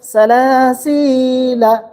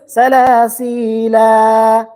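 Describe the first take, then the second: First: The final vowel is kept short. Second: The final vowel is drawn out long. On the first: "because of that circle on the top of alif, then we say salasila" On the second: "supposed to be that is salasila. Prolongation, right?"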